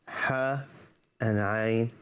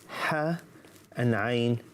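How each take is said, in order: No difference in how they are said.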